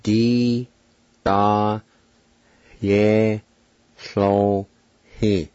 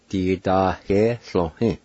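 First: "Di, da, ye, so, he" each held and set apart; "Di, da, ye, so, he" in isolated, drawn-out syllables; syllable-by-syllable demo. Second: "Di da ye so he" run together as one word; "Di da ye so he" blended smoothly; whole-word pronunciation demo. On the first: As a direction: sound out "Di, da, ye, so, he" with long pauses. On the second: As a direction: join "Di da ye so he" without pauses. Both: Shown as a demonstration. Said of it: "It's pronounced like this".

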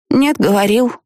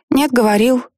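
First: Put-on high childish contradiction; stubborn little girl. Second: Put-on higher, teasing childish retort; playful little girl. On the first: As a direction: dig in like a stubborn kid. Child argues with mother. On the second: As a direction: play it as a game. Child treats argument as game. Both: A narrator's reading.

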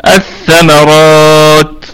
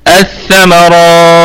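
First: الثمرات stretched with a long final vowel; الثمرات drawn out slowly; first pause option. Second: الثمرات with a shorter natural stretch; الثمرات at a shorter length; second pause option. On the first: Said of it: "هذا وجه". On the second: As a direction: stop الثمرات sooner. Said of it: "هذا وجه اخر". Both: Shown as a demonstration.

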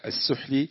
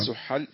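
First: Student reads السحل as "as-suhli"; mistaken vowelling. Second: Student repeats السحل as "as-suhal"; corrected vowelling. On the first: Student reading to his teacher, misvowelled السحل as "as-suhli". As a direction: say السحل with no vowel after the h, ending in "li". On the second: Student taking the teacher's correction, السحل voiced as "as-suhal". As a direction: say السحل with an "a" after the h. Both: Real, not acted. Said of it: "السحل".

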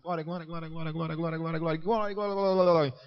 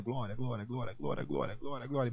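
First: Higher, racing imitated chant, building in volume; chanted, rattle it off until the tongue tangles; even faster chanting. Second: Chanted, soft, rapid-fire imitated repetition; chanted, repeat it over and over without a break, softly; repeated praise chant. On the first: Newcomer urged to go faster, racing chant that climbs into a garble. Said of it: "Mais rápido". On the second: Newcomer coached into tongues repeats on demand, soft running chant. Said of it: "Mais, mais, mais".

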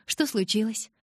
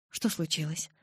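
First: Higher, cheerful enquiry; friendly, pitched-up curiosity; smiling question. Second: Understated concern; alarmed. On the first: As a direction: ask lightly with a smile. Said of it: "улыбнулась я". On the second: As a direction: ask with a touch of alarm, kept down. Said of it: "встревожилась я". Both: A narrator's reading.

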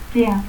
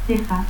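First: Tea, the J of teja breathed away; aspirated J. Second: Said in the usual way. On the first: Shown as a demonstration. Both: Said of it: "el fonema X se aspira".

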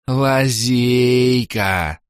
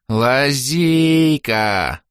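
First: Slow bubbling echo of Лазейка; gurgling tentacle alien. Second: Slow bubbling alien cry, stretched out; gurgling tentacle alien. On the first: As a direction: gurgle it again, drawn out. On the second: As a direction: gurgle the word from a puddle. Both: Acted. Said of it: "пробулькал из лужи Орбит".

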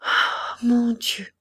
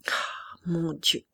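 First: A groan breaking into a cry; muffled lament. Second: Slow whispered moan; muffled lament. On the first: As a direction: lament to God, a touch of a sob. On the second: Feverish colonel laments the surrender, slow whisper. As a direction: breathe it out, slow, drained. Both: Acted. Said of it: "cette lamentation sourde".

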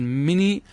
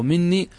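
First: "مني" with a single short n: mi-nii; lightened nun. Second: "مني" with a held double n: min-nii; doubled nun. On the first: Teacher citing the lightened word, "مني" with one short n. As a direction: leave the n of "مني" undoubled. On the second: Teacher offering the alternative form, "مني" with doubled n. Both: Shown as a demonstration. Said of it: "خفف لفظة من".

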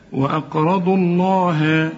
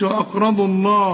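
First: "الله" slow with full lam and clear ending; correct Allah. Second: "الله" with the lam made too thick; mock the mistaken heavy "الله"; wrong heavy Allah. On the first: Teacher giving the corrected "الله" after the mistake. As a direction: say "الله" slowly and properly. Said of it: "لا". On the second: Teacher imitating the common wrong "الله". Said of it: "ما تقولش". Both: Shown as a demonstration.

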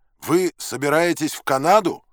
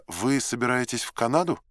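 First: Loud, high yelled question; raised, high-pitched shout; yelling. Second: Said in the usual way. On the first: A narrator's reading. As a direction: bellow the question to be heard. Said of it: "заорал я".

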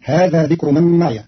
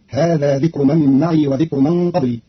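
First: معي with voweled ya, ma'iya; ma'iya, fatha on the ya; standard reading. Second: معي with silent ya, ma'ii; ma'ii, long plain ii; Qalun reading. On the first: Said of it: "بإسكان الياء". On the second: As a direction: let معي end on a still ya. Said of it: "فتصير". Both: Shown as a demonstration.

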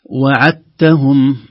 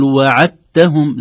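First: "وعدتهم" with a separate, clear dal, slow chant; wrong pronunciation. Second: "وعدتهم" slow chant with a doubled ta, dal merged; correct pronunciation. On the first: Teacher shows the unassimilated dal error. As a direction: sound the dal in "وعدتهم" apart. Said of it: "لاحظوا أن الدال ليس عليها شيء". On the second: Teacher models the assimilated ta, slow chant. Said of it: "لاحظوا التاء ... التاء مشددة". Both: Shown as a demonstration.

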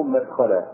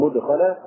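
First: مدخلا opening with a short a, "mad-"; fatha on the meem. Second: مدخلا opening with a short u, "mud-"; damma on the meem. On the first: Teacher showing students the alternative reading, fatha on the meem. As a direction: say مدخلا as "madkhalan", with an a after the meem. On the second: Teacher showing students the first reading, damma on the meem. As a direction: say مدخلا as "mudkhalan", with a u after the meem. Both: Shown as a demonstration. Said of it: "بضم الميم وفتحها".

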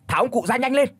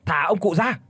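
First: Frantic yell. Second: Raised angry demand. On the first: Đào screaming at the demon tree, frantic. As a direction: scream the demand at full pitch. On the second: Đào yelling at the demon, angry. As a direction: order the demon to let go. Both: Acted. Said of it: "miệng thì liên hồi chửi".

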